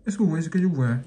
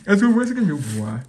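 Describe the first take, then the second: First: Said in the usual way. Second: Louder, eager repeat; excited. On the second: Shown as a demonstration. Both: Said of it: "repeated louder".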